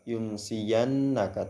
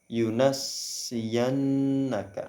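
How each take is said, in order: First: The first n is closed with no vowel after. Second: The first n takes an a vowel, s doubled. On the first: This is the reading of most reciters. "sukun pada huruf nun awal" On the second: This is the reading of one particular reciter. "dengan fathah pada huruf nun pertama dan tasydid pada huruf sin"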